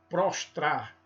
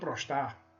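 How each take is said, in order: First: The second 'tr' cluster is fully pronounced. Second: The second 'tr' cluster loses its 't' or 'r'. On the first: The speaker calls it right. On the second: The speaker calls it wrong.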